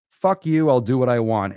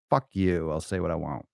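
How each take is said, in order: First: Loud, high defiant yell; defiant shout. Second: Said in the usual way. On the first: Shown as a demonstration. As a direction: shout it right back at the critics. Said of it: "defiant shouted repeat". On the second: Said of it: "defiant plain take".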